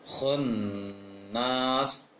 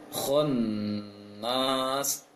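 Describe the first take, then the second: No difference in how they are said.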